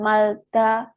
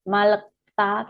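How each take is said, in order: First: An l sound comes right before ta. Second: An l, a vowel, then k come before ta. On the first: "Bukan malta" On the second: "atau bukan malekta"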